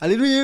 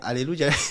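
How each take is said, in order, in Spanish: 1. La palabra se dice rápido y con prisa. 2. La palabra se dice a un ritmo normal.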